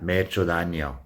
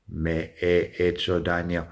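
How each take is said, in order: First: The phrase is said quickly and run together. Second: The phrase is said slowly and carefully.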